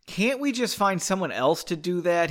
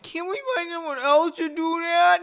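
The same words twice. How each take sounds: First: A mild whine, close to the narrator's voice; understated whine. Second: Very high, sustained whiny voice; exaggerated whine. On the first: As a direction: complain with only a touch of whining. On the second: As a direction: whine it out like a hammed-up complainer. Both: A narrator's reading. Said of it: "he whined".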